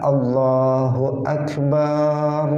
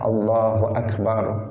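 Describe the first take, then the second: First: The vowel after b is drawn out long. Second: The vowel after b is kept short.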